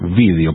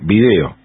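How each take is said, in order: First: The stress is on the first syllable. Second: The stress is on the second syllable.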